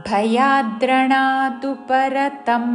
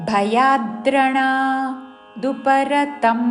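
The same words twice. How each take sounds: Both takes have the same delivery.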